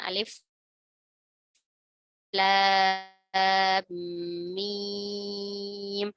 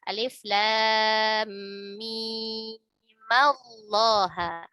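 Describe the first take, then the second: First: The reading stops after a long drawn-out mim. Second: Mim takes an 'a' and flows into 'llaha'. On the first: "Bacaan biasa dengan memotongnya" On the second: "kalau misalkan mau diwasol"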